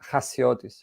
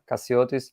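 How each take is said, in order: First: The name is said with its Greek pronunciation. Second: The name starts with a k sound. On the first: This is how it is said in the speaker's own language. "in Greek, you you say" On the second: This is an easier version for most people. "So I just ask them to say Ka"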